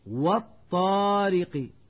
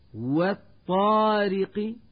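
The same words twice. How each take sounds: First: The opening w sound is heavy. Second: The opening w sound is light. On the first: The speaker calls it wrong. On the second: The speaker calls it right.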